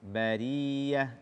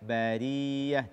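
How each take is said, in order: Both takes have the same delivery.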